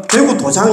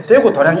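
First: 대구 도장, with a j sound in 장; misreading. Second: 대구 도량, with an r-y sound in 량; temple reading. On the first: Teacher demonstrates the mistake to class, misreading 대구 도장 with a j. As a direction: say 대구 도장, j in place of the r. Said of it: "이렇게 읽으면 안 된다". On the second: Teacher models the temple name, reading 대구 도량 with an r. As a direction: say 대구 도량, tapped r rather than j. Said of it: "이렇게 읽어야 되지". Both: Shown as a demonstration.

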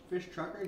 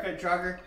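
First: Fish trucker said with a clear sh sound, a slip; slip of the tongue. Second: Fit Trucker said with a crisp t sound; corrected name. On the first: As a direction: says Fish trucker instead of Fit. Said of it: "Sorry, Fit Trucker". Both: Real, not acted.

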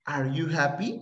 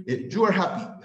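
First: "Are you happy?" rising at the end on "happy"; question tune. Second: "you are happy" falling at the end, stress on "you"; statement tune. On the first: Teacher demonstrating a question to the class: rising tune on "happy". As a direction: let "happy" lift like a question. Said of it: "Estoy preguntando". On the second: Teacher contrasting a statement with a question: falling tune. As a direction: state it flat and settled, voice dropping. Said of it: "Estoy afirmando". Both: Shown as a demonstration.

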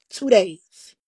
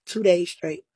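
First: "Two days" hit much louder with weight on "Two"; loud, heavy stress on "Two" and "days"; emphatic repeat. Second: Said in the usual way. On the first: Real, not acted. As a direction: slam down "Two days" to drive the point home. Repeats it to drive it home.

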